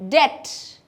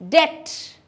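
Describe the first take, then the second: No difference in how they are said.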